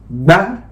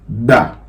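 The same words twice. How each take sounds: First: The syllable is said on a high tone. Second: The syllable is said on a low tone. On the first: "Now let's go on with the high tone" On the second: "We are going to start with a low tone"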